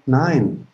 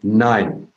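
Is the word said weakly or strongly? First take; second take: weakly; strongly. First: It is said weakly and hesitantly. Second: It is said strongly and decisively.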